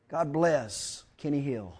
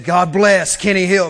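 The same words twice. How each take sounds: First: Quiet aside. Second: Louder repeat. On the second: Preacher repeating the blessing louder to the congregation, louder repeat. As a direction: say it again with more push. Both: Real, not acted. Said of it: "I said".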